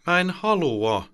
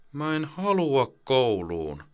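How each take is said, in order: First: Put-on high, slow, louder child's protest; a bit louder. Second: Put-on high, slow child's mutter. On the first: Boy carried from bed protests to his mother, louder. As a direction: push back, raising the voice. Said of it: "hän sanoo vähän isommalla äänellä". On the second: Boy mutters against his mother's shirt, sulky and slow. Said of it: "Rasmus mutisee äidin paitaa vasten".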